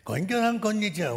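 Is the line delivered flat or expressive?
expressive. The line is said with lively, dramatic expression. The speaker calls it wrong. "みたいなやり方で全部言ってますね。そうしなくていいんです。"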